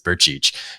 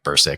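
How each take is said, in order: First: The surname is said in the Croatian way. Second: The surname is said in an Americanized way. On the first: This is the original native form. The speaker calls it right. "the correct uh, Croatian pronunciation" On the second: This is how people commonly say it. The speaker calls it wrong. "that's what people pronounce it"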